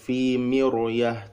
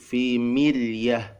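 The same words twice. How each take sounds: First: The r sound is thick and heavy. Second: The r sound is thin and light. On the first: The speaker calls it wrong. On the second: The speaker calls it right.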